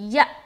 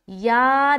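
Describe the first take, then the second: First: The vowel stops abruptly with a catch. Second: The vowel is drawn out long and smooth. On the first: The speaker calls it right. "बल्कि या, या, या इस तरह पढ़ेंगे" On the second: The speaker calls it wrong. "हम या नहीं पढ़ेंगे"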